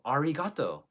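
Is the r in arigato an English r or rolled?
English. The r is a flat English r. "most English speakers will be like"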